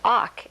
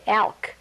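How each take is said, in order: First: The L is silent, like the end of talk. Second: Each letter is sounded, like the word elk. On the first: The speaker calls it right. "the actual sound is awk, as in talk" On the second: The speaker calls it wrong. "if you were to sound this out, it would say"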